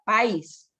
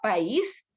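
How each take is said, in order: First: The stress falls on the a, one syllable. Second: The stress falls on the i, two syllables. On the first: "Si no le pone tilde, se tiene que leer país" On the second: "yo no leo país"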